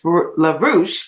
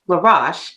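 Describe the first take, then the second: First: The last syllable does not rhyme with posh. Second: The last syllable rhymes with posh. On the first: The speaker calls it wrong. "Oftentimes people think it's La Rouche" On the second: The speaker calls it right. "but it sounds like posh"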